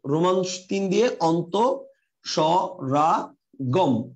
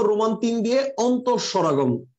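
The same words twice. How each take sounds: First: "অন্তঃস্বরাগম" drawn out syllable by syllable; slow dictation. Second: Said in the usual way. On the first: Shown as a demonstration. Teacher giving students the new heading, slow dictation. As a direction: dictate slowly, breaking "অন্তঃস্বরাগম" into separate parts.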